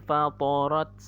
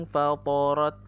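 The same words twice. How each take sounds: Both takes have the same delivery.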